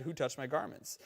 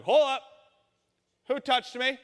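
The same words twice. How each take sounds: First: Said in the usual way. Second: Higher and louder, an abrupt halt; Jesus freezing the crowd; Jesus stopping short. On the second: Retold or imitated. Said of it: "And he's like".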